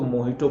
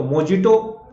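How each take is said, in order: First: मोहितो with 'h', no 'j'; lower, corrective मोहितो; correct pronunciation. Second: मोजिटो with a hard 'j'; spelling pronunciation. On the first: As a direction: say 'mo-hee-to'. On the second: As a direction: sound out 'mo-ji-to' as written. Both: Shown as a demonstration. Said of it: "but इसको मोहितो पढ़ा जाता है".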